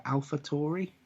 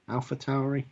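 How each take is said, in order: First: Tauri said as "TOR-ee"; first syllable of Tauri rhymes with "more"; pronunciation of Tauri. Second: Tauri said as "TOW-ree"; first syllable of Tauri rhymes with "cow"; pronunciation of Tauri. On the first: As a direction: say Tauri with an "or" vowel. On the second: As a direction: say Tauri with an "ow" vowel. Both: Real, not acted. Tries two pronunciations of the name.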